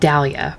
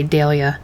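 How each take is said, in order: First: It is said in a non-British pronunciation. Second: It is said in a British pronunciation. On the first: "I would pronounce it Dahlia" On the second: "I guess the English would say Dahlia"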